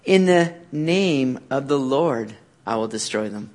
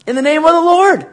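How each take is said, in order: First: Soft and slow, reading the verse; softer scripture reading before the proclamation; quiet reading. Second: Much higher and louder, declared with conviction; preacher ringing out the verse; bold proclamation. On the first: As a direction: read it hushed and low. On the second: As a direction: proclaim it like a battle cry. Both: Shown as a demonstration. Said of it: "What does he say all through those verses".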